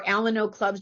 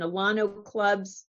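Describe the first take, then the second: First: "Alano" said AL-uh-no; alternative pronunciation. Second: "Alano" said a-LAH-no; regional pronunciation. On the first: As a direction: say "Alano" with a short A stressed up front. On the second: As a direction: say "Alano" with an open AH stressed in the middle. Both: Shown as a demonstration. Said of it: "how you pronounce it".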